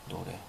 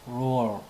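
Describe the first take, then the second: First: It is said with a Korean spelling-based pronunciation. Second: It is said with a native English pronunciation. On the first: This is the common local way of saying it. "철자 발음으로 융통성 있게 노래라고 하죠" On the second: This is how the original language says it. "원어를 한번 들어보십시오"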